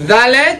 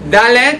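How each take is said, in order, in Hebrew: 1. העיצור הוא צליל מזמזם, כמו th ב-this. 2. העיצור הוא עצירה קצרה, כמו d באנגלית. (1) "אני מנמיך קצת הלשון, מרפא אותה" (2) "אני שם את הלשון על החיבור של השיניים והחיך"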